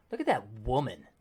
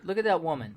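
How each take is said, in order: First: "Look at that woman" said low and suggestive, leering; lecherous, lower tone. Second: Said in the usual way. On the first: Shown as a demonstration. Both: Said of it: "the inflection really makes it like".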